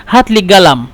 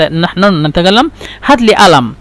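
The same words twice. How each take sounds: First: قلم said galam with a hard g; gulf qaf as g. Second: قلم said alam with a glottal stop; egyptian qaf as hamza. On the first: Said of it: "قلم، قاف يعني غين". (قلم بالجيم على الطريقة الخليجية) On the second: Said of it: "قاف يعني همزة". (قلم بالهمزة على الطريقة المصرية) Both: Shown as a demonstration.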